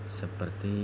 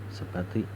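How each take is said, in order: No difference in how they are said.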